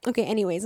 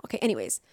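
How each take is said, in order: First: Said in the usual way. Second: Deflated, quieter. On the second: Real, not acted. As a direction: lower and softer, letting it go. Moving on after an apology.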